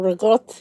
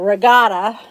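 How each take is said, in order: First: It is said with an Italian pronunciation. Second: It is said with an American pronunciation. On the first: "or I say it the Italian way" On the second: "I'll say it the American way"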